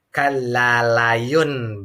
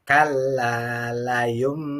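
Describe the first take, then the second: First: The word ends with a clear n sound. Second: The word ends with an m sound. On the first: The speaker calls it wrong. "bukan kalalayun, bukan" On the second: The speaker calls it right. "Nonnya masuk ke ba seperti huruf mim"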